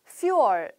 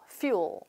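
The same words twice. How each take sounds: First: The word is said slowly and carefully. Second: The word is said fast and slurred. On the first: The speaker calls it wrong. "이런 느낌으로 기억하지 말고" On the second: The speaker calls it right. "약간은 흘리듯이 굉장히 빠른 속도로"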